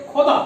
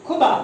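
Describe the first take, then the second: First: खोदा with a throaty kh, meaning God; nukta khuda. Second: खुदा with aspirated kh, dug ground; plain khuda. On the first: Teacher to students, saying खोदा with nukta, throaty kh. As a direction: rasp the start of खोदा in the throat. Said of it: "उसका उच्चारण कैसे होगा". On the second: Teacher to students, reading खुदा without nukta plainly. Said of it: "बिना नुक्ता वाला". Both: Shown as a demonstration.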